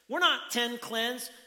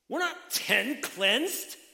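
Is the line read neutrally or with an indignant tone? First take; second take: neutrally; indignant. First: It is read plainly, without any tone. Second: It is read with an indignant, questioning tone.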